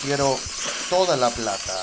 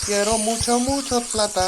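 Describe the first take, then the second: First: "Quiero toda la plata" said carefully with "toda" stressed; corrected Spanish. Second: High, loud "Quiero mucho, mucho plata" in clumsy Spanish; wrong Spanish. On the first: Gamer correcting himself, careful "toda la plata". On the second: Gamer trying Spanish, mistaken "mucho plata" said high. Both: Shown as a demonstration. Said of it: "That's not how you say it".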